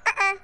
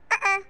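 The two takes are said the same way.

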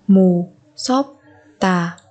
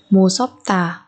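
First: "Mù sốp tà" in separate syllables. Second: Said in the usual way. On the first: Shown as a demonstration. Teacher modelling a word for learners, syllable by syllable. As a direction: break "Mù, sốp, tà" apart.

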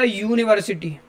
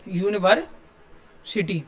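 First: Said in the usual way. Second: यूनिवर्सिटी drawn out slowly with a clear "yu" at the start; clear yu sound. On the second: Shown as a demonstration. Teacher showing students the "yu" in यूनिवर्सिटी, slow and clear. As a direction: stretch out यूनिवर्सिटी so the "yu" of यूनिवर्सिटी rings clearly. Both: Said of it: "यू का sound आएगा".

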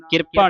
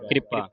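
First: ਕਿਰਪਾ split as "kir-pa"; mistaken pronunciation. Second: ਕਿਰਪਾ with r joined to k, "kripa"; correct pronunciation. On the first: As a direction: say ਕਿਰਪਾ wrongly with a vowel before r. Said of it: "ਕਿਰਪਾ ਨਹੀਂ ਪੜ੍ਹਨਾ". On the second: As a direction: say ਕਿਰਪਾ quickly as "kri-pa". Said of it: "ਇੱਥੇ ਪੈਰ ਵਿੱਚ ਰਾਰਾ ਲੱਗਾ ਹੈ". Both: Shown as a demonstration.

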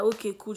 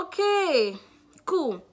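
First: Said in the usual way. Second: Much higher, louder bright okay; relieved chirpy okay. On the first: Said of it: "she was like". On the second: Retold or imitated. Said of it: "I was like".

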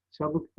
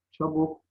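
First: "Çabuk" with ı for u, çabık; second vowel of "Çabuk" turned to ı; misspelt form. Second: Said in the usual way. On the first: Shown as a demonstration. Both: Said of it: "Çabuk değil".

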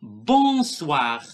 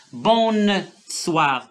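First: "Bonsoir" with a nasal first vowel, no N heard; correct bonsoir. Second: "bonsoir" with the N sounded, bon-n-soir; wrong bonsoir. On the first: Teacher giving pupils the right way, nasal vowel only. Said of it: "on doit pas entendre N". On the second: Teacher warning pupils off the wrong way, N sounded. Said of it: "ما كنقولوش bonsoir". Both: Shown as a demonstration.

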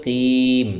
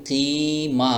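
First: কিম with a long ee shut on m; stopping pronunciation. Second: keema with a long ee and open ma; non-stop pronunciation. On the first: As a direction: hold কিম, then close the lips on m. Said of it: "তবে stop করলে হবে". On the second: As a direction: stretch keema, letting the ma sound out. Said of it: "এভাবে বলেন". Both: Shown as a demonstration.

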